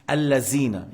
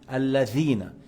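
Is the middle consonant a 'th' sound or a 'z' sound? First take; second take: z; th. First: The middle consonant is a plain z sound. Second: The middle consonant is a soft th sound. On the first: The speaker calls it wrong. "un mot n'a pas de sens" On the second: The speaker calls it right. "tu mets la langue entre les dents"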